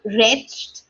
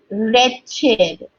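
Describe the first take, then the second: First: Wretched said wretcht, one syllable; wrong wretched. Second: Wretched said wretch-id; correct wretched. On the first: Teacher warning learners off wretcht. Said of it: "It's not wretched". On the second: Teacher repeating wretched for learners, wretch-id. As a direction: say Wretched with id ending. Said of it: "I'll repeat that for you". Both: Shown as a demonstration.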